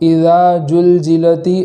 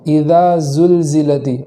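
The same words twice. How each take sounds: First: The consonant is pronounced like a J sound. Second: The consonant is pronounced like a Z sound. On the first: The speaker calls it wrong. "ऐसा नहीं पढ़ेंगे" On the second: The speaker calls it right. "बल्कि"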